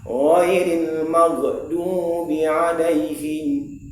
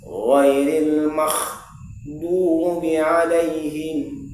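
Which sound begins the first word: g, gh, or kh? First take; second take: g; kh. First: The first sound is a plain hard g. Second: The first sound is a voiceless rasping kh. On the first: "yang paling fatal menjadi huruf g" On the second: "digantinya huruf ghain menjadi huruf kha"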